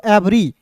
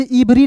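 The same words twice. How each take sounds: First: एवरी opening on an open "e"; correct pronunciation. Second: इवरी opening on an "ee" sound; wrong pronunciation. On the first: Teacher giving learners the reading of EVERY, correct pronunciation. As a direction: read EVERY as एवरी, "evri". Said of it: "इसे पढ़ते हैं दोस्तों एवरी". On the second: Teacher warning learners off a misreading, wrong pronunciation. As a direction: misread EVERY as इवरी, "ivri". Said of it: "इवरी नहीं पढ़ेंगे". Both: Shown as a demonstration.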